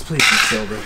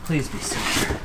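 First: Said in the usual way. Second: Soft unvoiced hopeful whisper; whispered plea. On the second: Real, not acted. Vlogger hopes the coins are silver, whispered plea. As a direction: breathe it like a wish.

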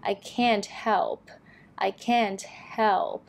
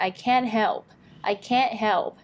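First: "can't" with its final T released before "help"; audible T. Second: "can't" without its T, straight into "help"; dropped T. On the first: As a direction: pronounce the T in "can't" slowly and clearly. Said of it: "มีเสียง T ใช่ไหม". (ออกเสียง T ท้าย can't ชัดๆ) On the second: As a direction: leave the T off "can't". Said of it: "ก็คือไม่ออกเสียง T". (ละเสียง T ท้าย can't) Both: Shown as a demonstration.

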